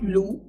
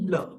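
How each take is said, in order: First: It ends in a long 'oo' vowel. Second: It ends in a short 'uh' vowel. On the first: The speaker calls it wrong. "L U H is not Lu" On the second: The speaker calls it right. "L U H is ਲ"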